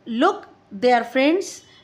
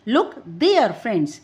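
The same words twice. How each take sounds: First: The word look carries the main stress. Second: The word there carries the main stress. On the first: Look, rather than go or do something else. "यहाँ लुक not go और do some other action." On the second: Look there, not here or somewhere else. "लुक there not here और somewhere else."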